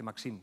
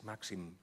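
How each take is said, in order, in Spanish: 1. El nombre se pronuncia con pronunciación francesa. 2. El nombre se pronuncia con pronunciación catalana. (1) "que suena muy francés" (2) "es en valenciano, en catalán"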